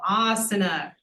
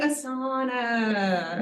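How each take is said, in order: First: The stress falls on the first syllable. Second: The stress falls on a later syllable. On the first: The speaker calls it right. "you put the emphasis on the long vowel" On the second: The speaker calls it wrong. "People always say asana"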